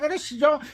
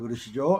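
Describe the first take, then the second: First: It is said in a high, womanly voice. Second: It is said in a deep, thick voice. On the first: The speaker calls it wrong. "여자 목소리가 나오는 남자들이 있어요" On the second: The speaker calls it right. "남성의 그 바리톤 굵은 목소리가"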